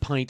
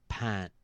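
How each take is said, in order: First: The vowel is a full glide, as in 'pine'. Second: The vowel is flattened, sounding like 'pat'. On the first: The order was misunderstood. The speaker calls it wrong. "I said pint, and they gave me a plate" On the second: The order was understood. The speaker calls it right. "I said pat. And they go, "Oh, a pat.""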